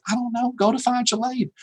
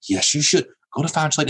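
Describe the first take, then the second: First: High, offhand mock shrug; dismissive brush-off. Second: Said in the usual way. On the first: Faculty member answers a student with problems, dismissively. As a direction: imitate a faculty member fobbing off a student, pitched up. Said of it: "You're like". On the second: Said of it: "And you go".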